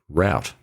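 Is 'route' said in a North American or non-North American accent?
North American. It is said in a North American accent.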